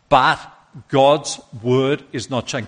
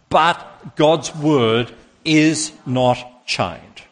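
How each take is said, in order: First: It is said plainly, without special force. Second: It is said with strong, forceful conviction.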